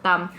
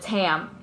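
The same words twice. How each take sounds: First: The name is said with Vietnamese pronunciation. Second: The name is said with American pronunciation. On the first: This is the name as it is said in the home language. "I'm gonna go by [name]" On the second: This is the name adapted for English speakers. "instead of"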